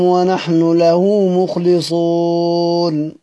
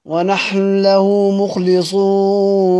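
First: ونحن له chanted with the final nun of ونحن fully voiced before له; without merging. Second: ونحن له chanted with the nun of ونحن merged into the lam of له; idgham, merged. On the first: Reciter showing variant readings, chanting ونحن له unmerged. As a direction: keep the nu of ونحن separate from له. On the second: Reciter showing the merged reading, chanting ونحن له as one. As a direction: run ونحن له together as wanahl-lahu. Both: Shown as a demonstration. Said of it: "نضغم".

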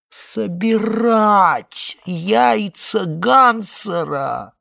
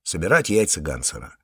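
First: Slow, high, drawn-out groan on собирать яйца Гансера; echoing Marvin with a loud, slow wail; moaning. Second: Said in the usual way. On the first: A narrator's reading. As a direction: groan the words in disbelief. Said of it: "простонало яйцо Гансера". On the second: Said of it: "сурово проговорил он".

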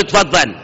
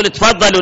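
First: Said in the usual way. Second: Demonstrating the right polite form to a father; polite plural invite. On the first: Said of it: "لا تقول". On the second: Shown as a demonstration. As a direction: offer تفضلوا warmly to a parent. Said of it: "قول".

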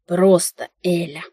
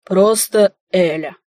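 First: Slow, mild growl of warning; understated irritated growl. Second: Slow, firmer repeat with a hint of mischief; lightly voiced man, drawn-out and playful; sly echo. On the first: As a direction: growl it slowly, holding back annoyance. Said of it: "прорычала". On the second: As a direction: echo it back slowly, teasing. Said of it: "повторил тот, и мне показалось... лукавые огоньки". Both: A narrator's reading.

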